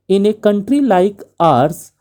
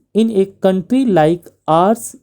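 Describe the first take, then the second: No difference in how they are said.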